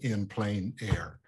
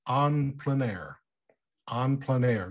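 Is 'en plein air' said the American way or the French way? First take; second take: American; French. First: The first word sounds like English 'in'. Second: The first word has a French nasal vowel. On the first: "pronounce it the old Kansas way" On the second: "I believe the correct, ... is en plein air"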